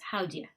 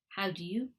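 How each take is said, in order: First: The words run together into one reduced chunk. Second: Each word is said fully and separately.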